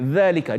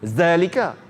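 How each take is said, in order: First: The first consonant is a 'th' sound. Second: The first consonant is a 'z' sound. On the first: The speaker calls it right. "Makhraj di hujung lidah" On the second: The speaker calls it wrong. "dia tak boleh kita baca zalika"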